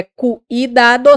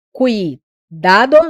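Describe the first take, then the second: First: "cuidado" said slowly with "ui" glided; correct glide. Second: "cuidado" said very slowly with "u" and "i" apart; wrong split. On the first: Teacher shows students the right "cuidado". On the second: Teacher shows students the wrong "cuidado". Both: Shown as a demonstration. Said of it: "não é cuidado".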